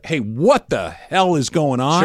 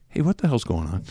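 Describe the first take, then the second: First: It is said loudly and alarmed. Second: It is said quietly and calmly.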